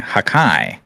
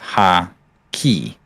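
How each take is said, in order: First: The word ends with a 'kai' sound. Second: The word ends with a 'ki' sound. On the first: The speaker calls it wrong. "you mispronounced the word hockey, saying hakai" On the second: The speaker calls it right. "instead of ha-ki"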